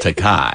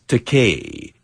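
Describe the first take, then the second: First: The last syllable does not rhyme with toupee. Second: The last syllable rhymes with toupee. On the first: This is how another person keeps saying it. The speaker calls it wrong. "he keeps insisting on pronouncing it Takai" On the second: This is the name's proper pronunciation. The speaker calls it right. "It rhymes with toupee"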